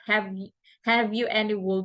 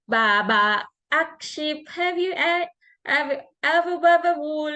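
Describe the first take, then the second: First: Said in the usual way. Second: Put-on high childlike Baba akship, have you ever wool; toddler's mispronunciation. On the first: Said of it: "he could not say it clearly". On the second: Mom imitating her son's garbled nursery rhyme, high. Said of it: "he would just mimic the words".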